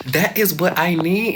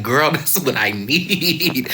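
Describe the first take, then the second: First: "That is" punched high and loud; emphatic THAT IS. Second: "need" stretched long, with a laugh; drawn-out NEED. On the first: Student agreeing with her strict teacher, "That is" stressed. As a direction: hit "That is" hard, each word separate. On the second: Student answering her strict teacher, "need" drawn out long. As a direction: stretch out "need" in loud, high delight. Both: Retold or imitated.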